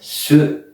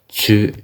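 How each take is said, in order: First: The syllable begins with a plain s sound. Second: The syllable begins with a blended ts sound. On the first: The speaker calls it wrong. "it isn't su" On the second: The speaker calls it right. "Tu is a mix between the T and the S sound"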